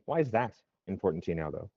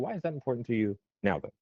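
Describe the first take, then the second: First: The word "that" is stressed. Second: The word "now" is stressed. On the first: The listener answers about the tangible thing. "Second one, tangible. That" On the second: The listener answers in terms of time frame. "you will answer in terms of time frame"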